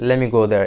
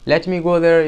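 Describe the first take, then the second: First: Let me is blended into one word, lemme. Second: Let me is said as two full words. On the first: The speaker calls it right. "you can say ... It sounds more natural" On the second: The speaker calls it wrong. "Instead of saying"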